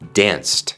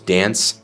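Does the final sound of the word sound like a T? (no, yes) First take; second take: yes; no. First: The ending sounds like a soft T. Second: The ending does not sound like a soft T. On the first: The speaker calls it right. "la ed al final de danced suena como una T suave" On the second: The speaker calls it wrong. "no decimos danced"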